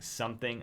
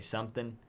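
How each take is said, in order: First: The final g sound is pronounced. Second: The final g sound is dropped.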